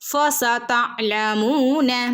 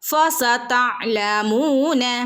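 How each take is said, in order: No difference in how they are said.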